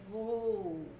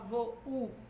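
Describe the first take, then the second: First: The u glides into the o, one syllable. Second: The u is split off as its own syllable. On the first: The speaker calls it right. "É vou" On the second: The speaker calls it wrong. "Você não fala vou, u. U não tem autonomia fonética"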